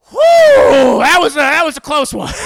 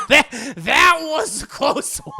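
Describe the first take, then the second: First: High, loud, fast breathless relief; relieved exhale. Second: Slow, high repeat breaking into laughter; laughing relief. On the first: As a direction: blow out the tension, barely escaped. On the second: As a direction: repeat it, cracking up. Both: Retold or imitated. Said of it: "And Dio's like".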